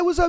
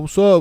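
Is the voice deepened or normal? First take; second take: normal; deepened. First: It is said in a normal speaking voice. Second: It is said in a deliberately deepened voice. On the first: Talking casually with male friends. "And then he's with you guys and he's just like" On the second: Trying to act tough in front of a woman. "he like deepens his voice when she's around"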